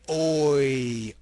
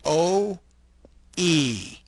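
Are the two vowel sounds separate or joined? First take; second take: joined; separate. First: One vowel glides smoothly into the other. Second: Two vowels are said apart with a break. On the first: The speaker calls it right. "We say oi" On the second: The speaker calls it wrong. "If you say them separately"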